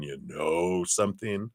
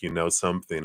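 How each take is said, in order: First: KNOW stretched long for emphasis. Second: Said in the usual way. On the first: Shown as a demonstration. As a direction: lean on "know", holding the vowel. Contrast of knowing and deeply knowing.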